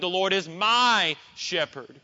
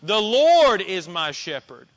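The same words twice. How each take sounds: First: The stress is on the word my. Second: The stress is on the word Lord. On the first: "You could place it on the word my" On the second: "You could place the emphasis on the word Lord"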